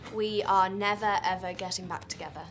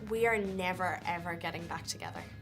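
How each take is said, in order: First: It is said in an English accent. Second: It is said in her own natural accent.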